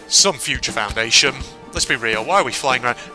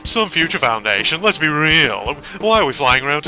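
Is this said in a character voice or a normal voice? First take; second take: normal voice; character voice. First: It is read in the speaker's normal voice. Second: It is read in a put-on character voice.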